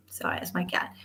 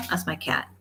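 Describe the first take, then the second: First: Whispered, much softer apology. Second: Said in the usual way. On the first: Real, not acted. Apologizing to viewers for her cat, whispered. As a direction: hush it like someone might hear.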